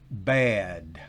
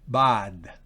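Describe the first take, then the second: First: The vowel is a blend between a and e. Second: The vowel is a plain open Spanish a. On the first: The speaker calls it right. "es bad" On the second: The speaker calls it wrong. "No es bad"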